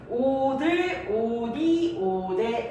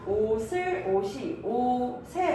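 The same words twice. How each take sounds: First: A d sound links into each following vowel. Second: An s sound links into each following vowel. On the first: The speaker calls it wrong. "라고 이야기하지 않는" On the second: The speaker calls it right. "라고 이야기를 하지"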